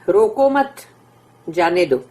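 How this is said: The pause comes after the word 'mat'. Do not stop him, let him go. "रोको मत की जगह के ऊपर अगर पॉज है"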